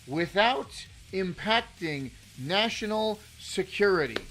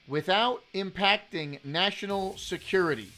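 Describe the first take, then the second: First: It is said slowly. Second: It is said at a normal pace.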